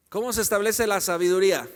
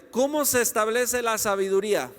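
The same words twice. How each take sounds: The two takes are said the same way.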